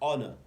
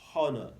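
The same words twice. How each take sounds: First: The initial H sound is silent. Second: The initial H sound is pronounced. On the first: The speaker calls it right. "the H here is silent. You say honor" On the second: The speaker calls it wrong. "You don't say honor"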